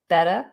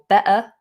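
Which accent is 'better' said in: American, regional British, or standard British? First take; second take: American; regional British. First: The t sounds like a soft d. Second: It is said in a regional British accent. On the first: "They might drop that T and say better, better. It goes more like a D" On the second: "in some um, regional U K accents"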